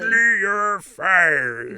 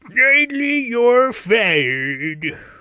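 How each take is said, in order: First: The voice is pitched lower and deeper. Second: The voice is pitched fairly high.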